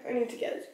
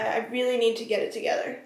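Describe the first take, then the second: First: Breathy whisper under her breath; whispered self-reminder; whispered to herself. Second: Said in the usual way. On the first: Real, not acted. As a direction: mutter it to yourself, almost no voice. Repeats line to herself.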